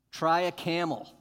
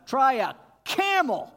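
First: Louder, punchy challenge; exclaiming. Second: Much higher, loud mocking shout. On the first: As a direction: dare them to try it. Preacher mocks impossible task. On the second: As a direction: yell the absurd dare. Preacher shouts mocking challenge. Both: Real, not acted.

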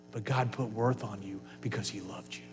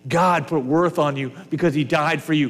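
First: Hushed, unvoiced whisper; soft whispered reassurance, much quieter. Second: Said in the usual way. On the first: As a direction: breathe it as an intimate secret. Quiet aside within repeated line.

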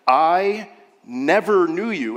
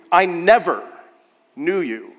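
First: "never" slow and drawn out; stress on never. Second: "never" punched loud then "knew you" dropped; stress on never. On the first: Preacher stressing "never" to his church. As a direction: lean hard on "never" for the congregation. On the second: Preacher repeating the verse with weight on "never". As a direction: hit "never" hard, let the rest fall. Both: Shown as a demonstration. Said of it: "It doesn't say".

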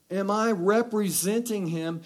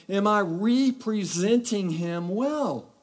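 First: Said in the usual way. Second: "representing" drawn out as REE-presenting; stress on first syllable. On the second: Real, not acted. Preacher challenging the congregation, "representing" stressed as REE-presenting. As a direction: slowly stretch the "re" in "representing" to "ree".

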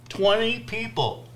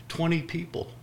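First: Twenty pitched high and stretched; disbelieving stress. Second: Said in the usual way. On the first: Shown as a demonstration. Preacher marveling at the twenty-person church, Twenty stressed high. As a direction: hit Twenty in mock disbelief. Stressing tiny crowd size.

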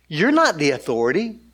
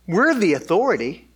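First: "not" stressed, "authority" rising. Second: "We're" stressed, ending in a fall. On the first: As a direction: deny it with weight on "not". Acting out jealous religious leaders' objection. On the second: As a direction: claim it, leaning on "We're". Leaders' claim set against denial. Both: Acted.

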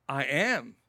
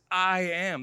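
First: Said in the usual way. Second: "I am." said firmly, weight on am; a touch louder, emphatic I am. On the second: Shown as a demonstration. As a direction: state it with full emphasis. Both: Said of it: "That's emphatic".

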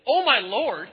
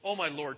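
First: Loud, high indignant outburst; acted divine outrage, loud and raised; angry God. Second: Said in the usual way. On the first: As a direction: throw the words back in anger. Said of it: "the first time God gets angry". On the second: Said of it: "kind of flippant and disrespectful".

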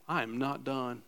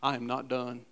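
First: I am not done dropped lower and quieter; hushed echo of I am not done; softer repeat. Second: Quiet emphasis. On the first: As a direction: let "done" sink in, hushed. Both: Shown as a demonstration. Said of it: "And listen".

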